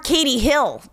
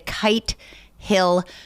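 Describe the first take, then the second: First: The first word has two syllables, like Katie. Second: The first word has one syllable, like kite. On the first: "we call it Katie Hill" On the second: "I have to remember to say right"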